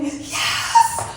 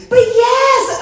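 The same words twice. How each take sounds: First: A breathy whispered cheer; whispered yes. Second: Much higher, loud victory shout; triumphant yell. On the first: To herself over a rat on her truck, hushed whisper. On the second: Celebrating the rat on her truck, loud whoop. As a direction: belt out the win. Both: Retold or imitated. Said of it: "I'm like".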